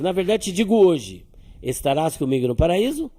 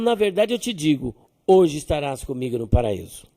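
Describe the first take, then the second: First: The pause comes after the word hoje. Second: The pause comes before the word hoje.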